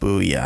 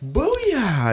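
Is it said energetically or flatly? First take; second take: flatly; energetically. First: It is said flatly, without any energy. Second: It is said with lively, excited energy.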